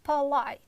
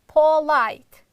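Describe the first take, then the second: First: The first vowel is a reduced schwa sound. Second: The first vowel is a full o sound. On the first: The speaker calls it right. "a sound, not o sound" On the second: The speaker calls it wrong. "Most students pronounce it like polite. It's wrong"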